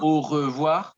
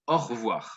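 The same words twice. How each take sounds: First: Every syllable is pronounced fully and carefully. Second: The word is clipped into a shorter, quicker form. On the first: "Not really au revoir" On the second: "we make it shorter"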